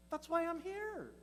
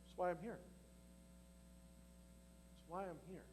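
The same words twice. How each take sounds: First: High echo. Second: Much softer, quietly certain; soft, settled Jesus. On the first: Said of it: "repeats Jesus's line for himself". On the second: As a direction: let it fall away to almost nothing. Jesus quoted, dropping softer. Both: Acted.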